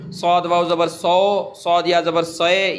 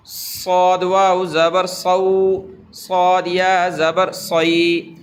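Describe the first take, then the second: First: صو said as a pure "so" and صے as a pure "se"; deliberately wrong صو and صے; wrong majhool vowels. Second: صو said as "sau" and صی said as "sai"; correct maroof diphthongs. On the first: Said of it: "یہ کہنا مجہول ہے، غلط ہے". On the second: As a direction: glide صو into "au" and صی into "ai". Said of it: "معروف پڑھ رہا ہوں". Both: Shown as a demonstration.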